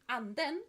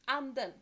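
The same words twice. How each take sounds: First: The second syllable carries more stress. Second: The second syllable carries less stress. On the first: It means the spirit. "the second has stronger pronunciation on the second syllable" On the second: It means the duck. "Anden is the duck"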